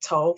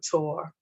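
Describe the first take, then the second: First: The final R sound is dropped. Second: The final R sound is pronounced.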